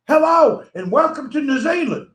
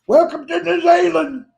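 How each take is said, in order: First: Miss Poppy impression. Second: A higher, louder mock hostess welcome; Miss Poppy impression. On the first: Mocking the New Zealand live-streamer for the viewers, a higher hammed-up greeting. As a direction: ham up her cheery broadcast welcome. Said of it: "you're like this". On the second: Mocking the New Zealand host for the stream, a higher hammed-up welcome. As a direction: sing out her greeting with a hammed-up pose. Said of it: "ballet dancing broadcast pose".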